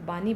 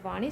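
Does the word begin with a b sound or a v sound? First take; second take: b sound; v sound. First: The word begins with a b sound. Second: The word begins with a v sound. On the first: This is a regional form of the word. "क्षेत्रीय विशेषताओं के कारण शब्दों के उच्चारण में परिवर्तन होता है" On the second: This is the standard form of the word. "जैसे वाणी शब्द"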